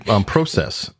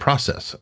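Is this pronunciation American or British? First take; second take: British; American. First: It is said with a British pronunciation. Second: It is said with an American pronunciation. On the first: "You also say process" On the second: "and we say process"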